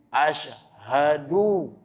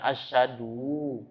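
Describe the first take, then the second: First: The middle consonant sounds like sh. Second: The middle consonant sounds like a plain s. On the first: The speaker calls it right. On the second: The speaker calls it wrong. "Bukan asyhadu"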